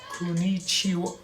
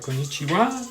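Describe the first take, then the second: First: It is said imitating a Japanese accent. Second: It is said with an American accent. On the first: "It's like kuni, kunichiwa" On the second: "I know I'm pronouncing it like American"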